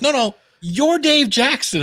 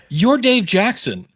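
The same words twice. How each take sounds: First: High, exaggerated emphatic retelling; imitated stronger insistence. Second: Higher, slow emphatic retelling; imitated insistence. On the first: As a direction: insist harder, pitch pushed right up. Friend repeats, more insistent. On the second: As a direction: spell it out like an awed friend. Friend insists on his renown.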